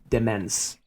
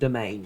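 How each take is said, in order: First: It sounds like 'demence'. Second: It sounds like 'domain'. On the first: The speaker calls it wrong. "for seven years this was Demence" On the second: The speaker calls it right. "I do pronounce it domain now"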